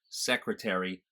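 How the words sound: The word is said with four syllables. "they get an extra syllable"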